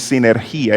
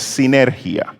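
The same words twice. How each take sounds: First: "sinergia" said with a stressed í, as sinergía; the wrong way: "sinergia" with the stress on the i. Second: "sinergia" with the stress on ner, the i unstressed; the right way: "sinergia" stressed si-NER-gia; correct stress. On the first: Preacher shows the congregation the mistake, "sinergia" with a stressed í. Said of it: "Sin acento en la I no se produce hiato". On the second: Preacher gives the congregation the proper "sinergia", stressed on ner. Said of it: "no hay que acentuar la I". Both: Shown as a demonstration.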